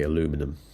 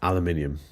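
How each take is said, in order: First: The word is said as aluminum. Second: The word is said as aluminium. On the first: This is how the speaker does not say it. "I don't say aluminum" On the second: This is how the speaker normally says it. "now say aluminium"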